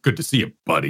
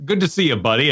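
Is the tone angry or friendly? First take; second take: angry; friendly. First: The voice sounds angry and sarcastic. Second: The voice sounds warm and friendly. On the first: This is how the game character actually delivered the reply. "I didn't realize that was an angry phrase" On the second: This is the reply the player meant to choose. "where you might pick a response and be like"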